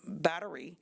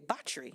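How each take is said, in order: First: It is said with a North American accent. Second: It is said with a British-influenced Caribbean accent.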